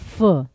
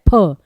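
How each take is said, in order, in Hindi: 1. इसका उच्चारण f ध्वनि की तरह होता है। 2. इसका उच्चारण aspirated p ध्वनि की तरह होता है। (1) "लेकिन उर्दू में कहते हैं फ" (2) "हिंदी में कहा जाता है फ"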